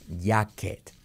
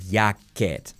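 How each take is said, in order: First: It begins with a 'y'-like sound. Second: The same.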